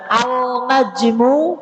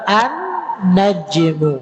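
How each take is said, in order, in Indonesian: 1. Bunyi L terucap dengan jelas. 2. L melebur menjadi N bertasydid. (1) "benar apa salah? Salah" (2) "Yang benar an najmu"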